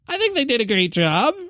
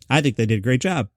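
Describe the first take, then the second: First: It is said with an exaggerated, loaded tone. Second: It is said plainly, without added attitude. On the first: The speaker is adding an editorial, snide slant. "I might have laid it on there" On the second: It is a sincere, neutral statement. "He might have just said"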